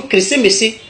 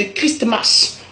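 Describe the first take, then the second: First: "Crécé-Messé" in four open syllables; Godié pronunciation. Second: "Christmas" in two syllables, kris-mas; English pronunciation. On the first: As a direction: break it into kré-sé-mé-sé. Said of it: "Nous disons". (« Crécé-Messé » à la godié, quatre syllabes en é) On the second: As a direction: say "Christmas" with closed consonant endings. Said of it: "la traduction de Christmas en anglais". (« Christmas » à l'anglaise, kris-mas) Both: Shown as a demonstration.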